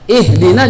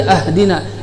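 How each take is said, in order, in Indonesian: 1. Kata ini diawali dengan vokal 'i'. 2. Kata ini diawali dengan vokal 'a'. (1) "Kalau ihdina, berikan kami petunjuk" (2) "ini jadi beda arti, ini batal bacaannya"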